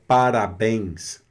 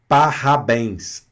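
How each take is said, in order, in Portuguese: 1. O R é batido com a ponta da língua. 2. O R é raspado bem no fundo da garganta. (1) "como a gente, por exemplo, é, é, pronuncia parabéns" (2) "de uma forma afrancesada, seria parabéns"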